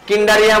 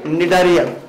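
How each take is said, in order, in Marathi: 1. शब्द k आवाजाने सुरू होतो. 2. शब्द n आवाजाने सुरू होतो. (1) "किंडारिया म्हणायला नाही त्याला" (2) "तर ते काय आहे निडारिया"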